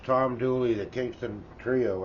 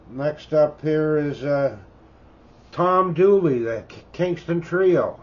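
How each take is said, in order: First: Said in the usual way. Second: Excited announcement. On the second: Real, not acted. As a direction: call out the title proudly like a DJ. Announcing the next record loudly.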